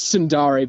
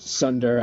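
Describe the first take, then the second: First: The word is said with three syllables. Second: The word is said with two syllables. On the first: The speaker calls it right. "it's Sundari" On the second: The speaker calls it wrong. "I I just pronounce it Sunder. I I know it's wrong"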